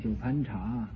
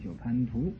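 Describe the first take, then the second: First: The last syllable is pronounced 'cha'. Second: The last syllable is pronounced 'tu'. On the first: The speaker calls it wrong. "那个念错了，念九盘茶" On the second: The speaker calls it right. "本来这个字应该念九盘图"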